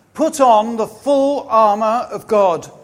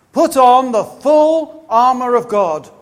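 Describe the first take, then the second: No difference in how they are said.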